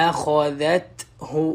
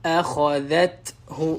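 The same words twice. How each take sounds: The two takes are said the same way.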